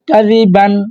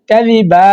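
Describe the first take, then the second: First: The word ends with an n sound. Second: The word ends on an open vowel. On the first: The reader continues without stopping. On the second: The reader stops at this word.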